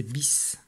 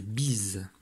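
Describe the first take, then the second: First: "bis" ending in a sharp s; unvoiced final s on "bis"; voiceless ending. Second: "bise" ending in a buzzed z; drawn-out "bise" with voiced z. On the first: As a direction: say "bis" as biss. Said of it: "mais ce". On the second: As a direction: say "bise" slowly as beez. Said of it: "ça ne chantera pas ze". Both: Shown as a demonstration.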